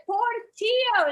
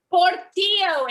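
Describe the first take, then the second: First: Portillo repeated much higher, slow and emphatic; insistent repeat. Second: Portillo said proudly, much higher and louder. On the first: Comic repeats the dog's name to puzzled painters, slower and insistent. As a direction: spell it out to the deaf painters. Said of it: "And I said". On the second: Comic tells painters her puppy's name, proudly. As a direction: announce Portillo like a proud mom. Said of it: "And so proudly I said". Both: Retold or imitated.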